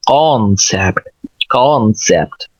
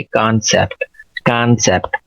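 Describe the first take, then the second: First: "कॉन्सेप्ट" with a rounded "aw", like "kawn-sept"; British pronunciation. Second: "कॉन्सेप्ट" with an open, unrounded "aa", like "kaan-sept"; American pronunciation. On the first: Teacher contrasting accents, rounded British "कॉन्सेप्ट". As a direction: round and fill out the British first vowel of "कॉन्सेप्ट". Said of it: "और British कहते हैं". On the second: Teacher contrasting accents, easy American "कॉन्सेप्ट". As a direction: relax the first vowel of "कॉन्सेप्ट" to a plain American "aa". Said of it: "American थोड़ा सा तकल्लुफ़ कम करते हैं". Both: Shown as a demonstration.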